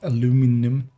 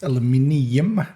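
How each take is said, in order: First: The word is said with four syllables. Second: The word is said with five syllables. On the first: The speaker calls it wrong. "not aluminum" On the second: The speaker calls it right. "That's how you pronounce that thing. It's aluminium"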